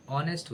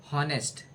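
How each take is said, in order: First: ऑनेस्ट with a silent H, starting on the O vowel; ऑनेस्ट said correctly, the H dropped. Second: हॉनेस्ट with a sounded H at the start; हॉनेस्ट said wrongly, H aspirated; wrong pronunciation. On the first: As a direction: say ऑनेस्ट, no H sound, open O first. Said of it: "एच जो है silent रहेगा". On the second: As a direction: say हॉनेस्ट with the H pronounced. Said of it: "हॉनेस्ट नहीं". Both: Shown as a demonstration.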